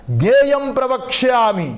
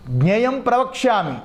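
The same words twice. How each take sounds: First: High, ringing declaration of scripture; loud proclamation. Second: Said in the usual way. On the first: Acted. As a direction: proclaim it forcefully, stretching the words. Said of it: "గట్టిగా". (గట్టిగా చాటి చెప్పడం)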